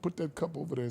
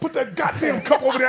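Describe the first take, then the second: First: It is said calmly and civilly. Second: It is said in an angry, scary voice.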